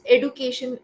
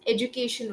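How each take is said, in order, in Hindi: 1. यह शब्द नए शहरी तरीके से बोला गया है। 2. यह शब्द पारंपरिक तरीके से बोला गया है। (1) "This education, recently" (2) "the traditional pronunciation is education only"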